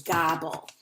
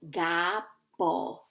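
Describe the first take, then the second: First: Said in the usual way. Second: "Gobble" broken in two, pause after "Gob"; split into syllables. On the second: Shown as a demonstration. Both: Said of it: "we're gonna do two syllables".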